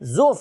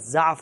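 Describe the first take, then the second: First: The first vowel is a rounded 'u' sound. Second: The first vowel is an open 'a' sound. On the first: "زاد کے اوپر ضمہ ہے، پیش ہے" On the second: "زاد کے اوپر زبر ہے"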